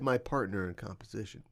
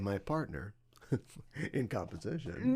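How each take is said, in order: First: The phrase runs on flatly without a pause. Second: The phrase has a pause and marked inflection. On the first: "he didn't pause. ... He just said" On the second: "He didn't say"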